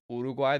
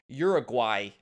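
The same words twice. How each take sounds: First: The name begins with an 'oo' sound. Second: The name begins with a 'yur' sound. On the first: "There's no "ur" in that" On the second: "In Ohio"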